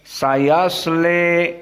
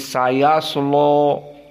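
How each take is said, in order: First: The final vowel leans toward an e sound. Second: The l is heavy and the vowel sounds o-like. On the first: "al-imalah al-kubra" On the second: "dengan taglid lam ... dibaca tebal lamnya"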